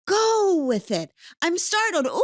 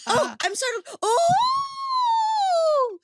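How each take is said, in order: First: High, loud mock startle; playful startle. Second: Very high whooping startled squeal; roller coaster squeal. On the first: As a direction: bounce into the startle like a ride. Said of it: "Hannah taught me after that, I can just". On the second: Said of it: "there's an energy of startled can just go to, like, I'm on a roller coaster". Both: Shown as a demonstration.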